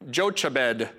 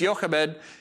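First: The name is pronounced the way it is spelled. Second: The name is pronounced differently from its spelling. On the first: The speaker calls it wrong. "it looks like her name is Jochebed" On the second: The speaker calls it right. "but it's Jochebed"

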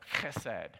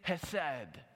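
First: It begins with a harsher rasping ch sound. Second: It begins with a light breathy h sound.

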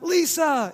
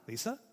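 First: The name is called out with a falling tune. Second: The name is asked with a rising tune.

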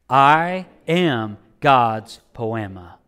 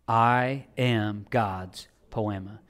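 First: It is said firmly, with strong conviction. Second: It is said plainly, without strong conviction. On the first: "let's say it with a little bit of conviction" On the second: "Say that with me"

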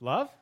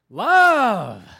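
First: It is said rising like a question. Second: It is said with excited exclamation.

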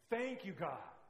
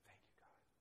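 First: It is said loudly, shouting. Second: It is said quietly and calmly.

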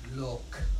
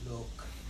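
First: It is said in a normal voice. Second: It is said in a Darth Vader voice.

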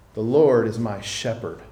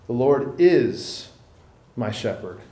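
First: The stress falls on 'shepherd'. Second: The stress falls on 'is'.

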